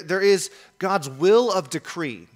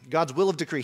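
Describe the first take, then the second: First: "will" stressed, slow and a touch louder; weighty announcement; emphatic slow. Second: Said in the usual way. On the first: Shown as a demonstration. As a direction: lean on "will of decree" deliberately.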